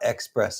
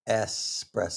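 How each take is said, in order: First: The word begins with an 'ex' sound. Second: The word begins with an 'ess' sound. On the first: The speaker calls it wrong. "It's not espresso" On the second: The speaker calls it right.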